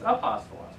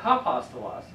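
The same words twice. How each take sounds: First: Apostolos starting straight on the vowel, no H; no H sound. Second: Hapostolos with an added H at the start; wrong H sound. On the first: Teacher giving students the right sound, no H. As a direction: say apostolos with no breath before the a. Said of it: "it's apostolos". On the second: Teacher contrasting a wrong H sound for the class. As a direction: say hapostolos with a breathy H before the a. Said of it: "is not hapostolos". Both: Shown as a demonstration.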